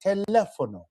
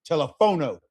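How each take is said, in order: First: Teléfono with the second syllable, lé, punched high; stress on written accent. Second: Telephono stressed toward the final o, not on the le; misplaced stress. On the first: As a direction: lean hard on the lé in teléfono. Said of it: "I gotta stress whatever is". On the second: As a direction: say telephono as learners normally misread it. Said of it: "what people normally would say". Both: Shown as a demonstration.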